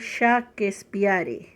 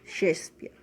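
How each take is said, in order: First: The name is read out as it is spelled. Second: The name is said with English pronunciation. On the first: "ahí se escribe Shakespeare" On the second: "pero se pronuncia Shakespeare"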